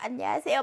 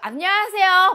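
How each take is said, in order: First: It is said shyly and quietly. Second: It is said loudly and boldly.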